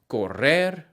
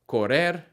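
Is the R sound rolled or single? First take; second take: rolled; single. First: The double R is rolled with a trill. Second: The double R is a single tap. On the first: "that rolling R sound" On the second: "pronounce the double R as a single R"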